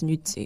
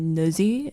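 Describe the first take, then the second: First: The double z sounds like ts. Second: The double z sounds like a plain z. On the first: This is the Italian pronunciation. "the Italian way is Nutzi" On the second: This is a form some family members use. "Some people say Nuzzi"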